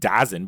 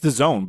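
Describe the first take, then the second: First: The name is read from its letters as 'dazzen'. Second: The name sounds like the words 'the zone'. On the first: This follows the spelling. "I'm pronouncing it DAZN because that's how it's spelled" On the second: This is the official pronunciation. "It's the zone"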